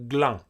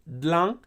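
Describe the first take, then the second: First: The word begins with a gl cluster. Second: The word begins with a dl cluster. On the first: This is a further shift heard from some people. "you start to hear people pronouncing it like glang" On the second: This is the quick contracted form. "it becomes dlang"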